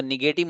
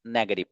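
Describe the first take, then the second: First: नेगेटिव with the weight on the middle syllable; wrong pronunciation. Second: नेगेटिव said as NEG-uh-tiv; नेगेटिव with a short, weak middle syllable; correct pronunciation. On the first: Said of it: "मत पढ़िएगा". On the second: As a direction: stress the first syllable of नेगेटिव. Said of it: "नेगेटिव पढ़िएगा". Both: Shown as a demonstration.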